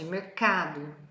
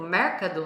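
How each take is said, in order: First: The stress falls on the usual syllable. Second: The stress falls on a misplaced syllable. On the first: The speaker calls it right. "Olha onde está a sílaba forte" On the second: The speaker calls it wrong. "com a entonação na sílaba errada"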